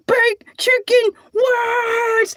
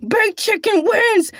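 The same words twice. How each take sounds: First: Triumphant shout. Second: Said in the usual way. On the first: Real, not acted. Repeated, slow triumphant shout.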